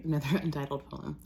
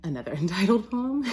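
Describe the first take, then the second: First: Said in the usual way. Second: Breaking into laughter. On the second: Real, not acted. Announcing yet another untitled poem to listeners, cracking up. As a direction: announce it louder and higher, rising into a giggle.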